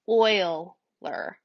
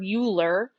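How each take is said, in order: First: It is said with its actual pronunciation. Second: It is read the way it looks written. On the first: The speaker calls it right. "it's actually pronounced like Euler" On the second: The speaker calls it wrong. "It looks like the word Euler"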